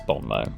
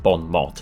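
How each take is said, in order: First: The final t of the second word is silent. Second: The final t of the second word is sounded. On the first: The speaker calls it right. "Apparently that's the correct pronunciation" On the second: The speaker calls it wrong. "It's not Bon Mot"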